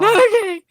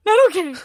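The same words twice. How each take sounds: First: Comic overwrought repeat; exaggerated despair. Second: Higher and louder, flat denial; mock distraught no; emphatic refusal. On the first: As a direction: ham up the despair of not okay. Echoing own quote, bigger. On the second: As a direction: insist you're not okay. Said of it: "I was like".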